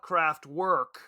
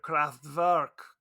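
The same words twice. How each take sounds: First: The name is said with an English pronunciation. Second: The name is said with a German pronunciation. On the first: The speaker calls it wrong. "Because I am not German" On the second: The speaker calls it right. "the proper pronunciation"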